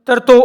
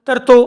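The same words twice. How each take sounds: The two takes are said the same way.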